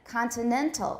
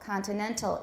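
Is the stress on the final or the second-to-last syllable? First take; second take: second-to-last; second-to-last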